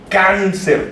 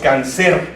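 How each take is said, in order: First: The stress is on the first syllable. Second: The stress is on the last syllable. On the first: The speaker calls it right. "decimos cáncer. El sonido fonético está aquí. Can, can" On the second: The speaker calls it wrong. "no decimos cáncer"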